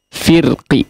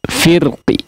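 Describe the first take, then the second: The two takes are said the same way.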